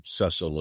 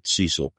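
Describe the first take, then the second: First: Cecil said as SESS-ul; short-e pronunciation. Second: Cecil said as SEE-sul; long-e pronunciation. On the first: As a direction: give Cecil a short first vowel, as in "less". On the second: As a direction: give Cecil a long ee in the first syllable. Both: Shown as a demonstration. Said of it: "I've heard it pronounced both ways".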